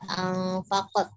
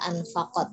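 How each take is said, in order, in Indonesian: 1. Huruf n-nya disamarkan dengan bunyi sengau. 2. Huruf n-nya dibaca jelas dan tegas. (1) "tidak perlu diikhfakan, tidak anfaqat" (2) "Bacanya jelas saja"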